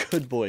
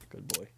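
First: Louder, laughing dog praise. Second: Quiet praise. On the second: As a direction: say it gently under your breath. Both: Pretend.

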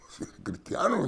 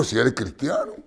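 First: Whispered aside, softer. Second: Said in the usual way. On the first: Shown as a demonstration. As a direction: drop to a whisper for emphasis. Repeats it in a whisper.

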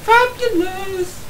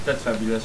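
First: Drawn-out, high sing-song "Fabulous". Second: Said in the usual way. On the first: Pretend. Teasing his co-player, camp fabulous drawl. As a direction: stretch "Fabulous" up high and slow. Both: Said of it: "I'm sounding fabulous right now".

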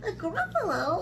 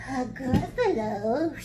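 First: High, lilting mouse question; surprised little mouse. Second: Slow, questioning snake voice; puzzled snake. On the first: Mouse feigning surprise at snake's ignorance, high and lilting. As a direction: echo it back in a high mouse voice. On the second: Snake asking mouse about an unknown beast, slow and puzzled. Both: Acted.

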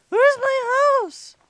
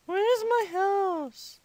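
First: High, loud, stretched "Where's my house?"; frantic kid yell. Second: Slow, stretched "Where's my house?"; drawn-out question. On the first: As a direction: holler it like a lost little kid. Lost, repeats the question louder. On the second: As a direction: kid wondering aloud, dragging out each word. Lost, searching for house in game. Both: Pretend.

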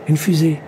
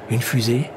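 First: Higher-pitched, lifted exclamation; excited cry. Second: Said in the usual way. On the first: A narrator's reading. Castaway spotting the rocket at last, crying out. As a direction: cry it out in amazement. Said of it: "cria-t-il en se frottant les yeux". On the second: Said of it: "dit-il en se levant".

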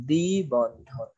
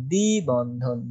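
First: দ্বিবন্ধন drawn out syllable by syllable; slow dictation. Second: Said in the usual way. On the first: Shown as a demonstration. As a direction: spell out দ্বিবন্ধন very slowly as if dictating. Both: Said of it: "এখানে আমরা একটু লিখে দেই".

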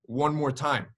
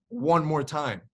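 No difference in how they are said.

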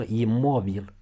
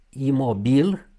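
First: Imobil stressed on o; noun stress on imobil. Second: Imobil stressed on final i, loud and rising; adjective stress on Imobil. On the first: Teacher contrasts the noun, imobil stressed in the middle. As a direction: say 'i-MO-bil' for imobil. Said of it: "când e substantiv". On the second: Teacher shows the adjective, Imobil stressed at the end. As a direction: say 'imo-BIL' for Imobil. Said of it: "dacă e vorba de adjectiv". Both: Shown as a demonstration.

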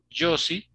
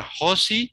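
First: "Josie" with a voiced J; foreign-name J. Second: "Josi" said as "HO-see"; throaty H opening "Josi"; Spanish J. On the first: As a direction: model "Josie" as "JO-see", slowly. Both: Shown as a demonstration. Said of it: "no existe en español".

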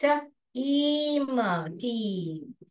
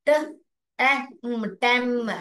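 First: ट, ईम slowly, then टीम with long ee; correct long reading. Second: ट, ए, म blended to टेम with short e; wrong short reading. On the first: Teacher demonstrating the right reading of team. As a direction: stretch the ee in टीम. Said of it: "ऐसे अगर पढ़ूंगी मैं". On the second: Teacher demonstrating the wrong reading of team. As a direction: read it wrong on purpose. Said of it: "ये गलत होगा ना". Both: Shown as a demonstration.

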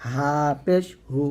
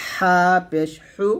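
First: Slow, light হা and হু without squeeze; thin glottal H. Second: Slow হা and হু squeezed from mid-throat; pressed throat H. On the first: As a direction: breathe হা and হু out thinly. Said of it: "শুরু থেকে পাতলা করে". (পাতলা করে হা, হু) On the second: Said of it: "মাঝখান থেকে চাপ দিয়ে". (চাপ দিয়ে হা, হু) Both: Shown as a demonstration.

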